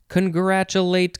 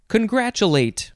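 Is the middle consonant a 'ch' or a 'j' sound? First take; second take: ch; ch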